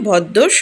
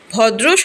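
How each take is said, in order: First: The middle has a doubled 'dd' sound. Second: The middle has a 'dr' consonant cluster. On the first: "উচ্চারণে ভদ্দর শব্দটি এসেছে" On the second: "ভদ্র শব্দ থেকে"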